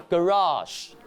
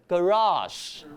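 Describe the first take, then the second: The two takes are said the same way.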